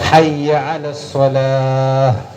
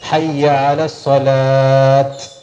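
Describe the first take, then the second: First: The last word ends with an h sound. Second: The last word ends with a t sound. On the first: The speaker calls it right. "ഹ എന്നാണ് ഉച്ചാരണം വരേണ്ടത്" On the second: The speaker calls it wrong. "തെറ്റാണ്"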